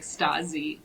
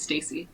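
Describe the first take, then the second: First: The middle consonant is a buzzing Z sound. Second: The middle consonant is a hissing S sound. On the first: "if there's only one S, it's like the the Z sound" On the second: "two S's make the S sound"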